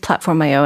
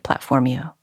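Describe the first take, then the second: First: The name is said in the usual plain way. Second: The ending is said to rhyme with Mercutio. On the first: This is how the makers pronounce it. "people say it's Platformio, and I know that's how they pronounce it" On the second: This is how the speaker privately hears it. "I always think of Platformio. Sort of like Mercutio"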